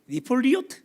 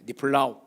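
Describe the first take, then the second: First: The word is said as nip-li-ot. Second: The word is said as nip-la-ut. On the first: The speaker calls it wrong. "다르게 발음하는" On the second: The speaker calls it right. "정확한 발음은 니플라웃이라고 말하는 게 훨씬 좋은 발음이에요"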